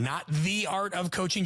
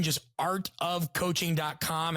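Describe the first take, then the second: First: "The" said as an emphatic "thee"; stress on THE. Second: "art of coaching" slow, word by word; corrected name, spelled out. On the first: Guest correcting the website name for listeners, stress on "The". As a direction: punch "The" as the word to leave out. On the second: Guest giving listeners the right website, "art" leading, slow. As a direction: slowly set out "art" with no "the" before it. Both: Shown as a demonstration.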